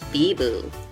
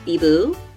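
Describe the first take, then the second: First: It is said in an absent, distracted tone. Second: It is said in a puzzled, confused tone. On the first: The speaker is not really listening. "pretending to listen" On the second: The speaker does not understand. "There's confused"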